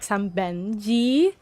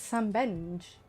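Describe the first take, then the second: First: The name ends with an added vowel sound. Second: The name ends on a consonant sound. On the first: The speaker calls it wrong. "They always add an E on the end" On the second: The speaker calls it right. "It's Sam Benj"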